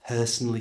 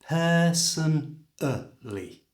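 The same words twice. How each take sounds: First: The word is said at normal conversational speed. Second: The word is said slowly and carefully.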